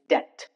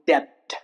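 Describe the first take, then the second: First: The B sound is silent. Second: The B sound is pronounced. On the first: The speaker calls it right. "B before T is silent" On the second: The speaker calls it wrong. "It's not debt"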